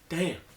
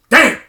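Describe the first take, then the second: First: It sounds like a mild, neutral remark. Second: It sounds like a shocked, disrespectful exclamation. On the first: No offense is meant. "I didn't say it like that" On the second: The listener is surprised by the other's age. "him saying "damn" was like disrespectful"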